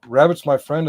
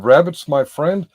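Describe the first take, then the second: First: "Rabbit's my friend" with a rising questioning tune; questioning rise. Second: Said in the usual way. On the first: Retold or imitated. Retelling how he said "Rabbit's my friend" as a question, rising. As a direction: turn "Rabbit's my friend" into a puzzled question, lifting at the end. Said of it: "as though it's a question". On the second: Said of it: "He said".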